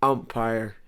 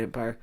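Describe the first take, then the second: First: "umpire" opening on an open "um"; umpire with clear "um". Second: "umpire" with the first vowel as "em"; umpire said as "empire". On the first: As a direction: correct yourself, opening "umpire" on "um", not "em". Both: Shown as a demonstration. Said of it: "no, sorry, not fucking umpire".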